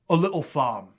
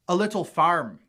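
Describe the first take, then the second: First: It is spoken in a Cockney accent. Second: It is spoken in an RP accent. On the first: "and Cockney" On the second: "R P"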